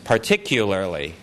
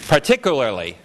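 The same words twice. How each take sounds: First: The middle syllable has a 'y' sound, 'kyu'. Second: The middle syllable is a plain 'ku' sound. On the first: The speaker calls it right. "And what I'm saying is particularly" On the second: The speaker calls it wrong. "Let me pronounce what's here"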